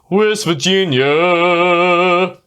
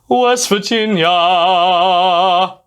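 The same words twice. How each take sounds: First: It is said with a small mouth opening. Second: It is said with the jaw dropped wide. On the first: "He kind of does it like that" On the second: "as opposed to really lowering that the the jaw"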